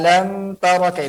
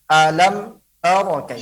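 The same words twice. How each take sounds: First: The m sound flows smoothly into the next. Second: The m sound is abruptly cut off. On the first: The speaker calls it right. "Tapi alam tara kai" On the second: The speaker calls it wrong. "Bukan alam tara kai"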